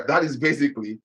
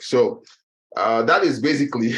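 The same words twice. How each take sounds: First: Said in the usual way. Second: Breathless, gasping between words; out of breath. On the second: Real, not acted. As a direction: talk while catching your breath. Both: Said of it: "I'm out of breath".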